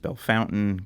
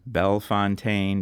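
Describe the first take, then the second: First: It is said with the local Americanized pronunciation. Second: It is said with the original French pronunciation. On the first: This is the form changed by later settlers. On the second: This is the original form of the name. "original French"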